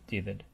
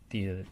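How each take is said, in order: Both takes have the same delivery.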